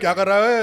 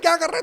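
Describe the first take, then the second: First: The voice comes deep from the belly. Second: The voice comes out through the nose. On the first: "वो पेट से निकल रहा है" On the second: "नाक से निकल रहा है आवाज"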